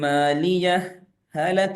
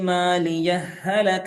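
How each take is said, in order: First: A brief breathless pause separates the two words. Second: The two h sounds merge into one doubled h. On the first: "സക്ത പാലിക്കുമ്പോൾ ഓതേണ്ട ഓത്താണ് ഞാൻ ഓതുന്നത്" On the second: "ഷദ്ദുള്ള ഒരൊറ്റ ഹ ആക്കി അങ്ങ് ഉച്ചരിച്ചു"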